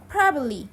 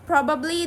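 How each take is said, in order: First: The second b sound is dropped. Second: Every b sound is clearly pronounced. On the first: "Native speaker will remove the second B" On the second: "instead of probably"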